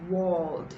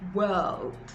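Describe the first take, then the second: First: The vowel is a long O sound. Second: The vowel is an er sound. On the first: The speaker calls it wrong. "It's not the long O sound" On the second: The speaker calls it right. "it's actually the er sound"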